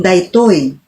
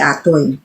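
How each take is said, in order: First: The word is said in full form. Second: The word is said without its first syllable. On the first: The speaker calls it right. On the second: The speaker calls it wrong.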